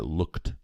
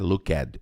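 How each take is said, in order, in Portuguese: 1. A terminação não acrescenta nenhuma sílaba extra. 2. A terminação é pronunciada como uma sílaba extra. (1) "Essa letra E não é pronunciada, é looked" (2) "não é looked"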